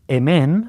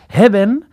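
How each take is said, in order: First: The word begins directly with a vowel. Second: The word begins with a breathy h sound. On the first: "en vez de decir emen" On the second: "hace esa H aspirada"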